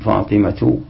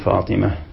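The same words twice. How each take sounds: First: The word ends with a t sound. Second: The word ends with an h sound. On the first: The word is joined to what follows. "تقول فاطمة إذا وصلت" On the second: The speaker stops on the word. "وإذا وقفت تقول فاطمة بالهاء"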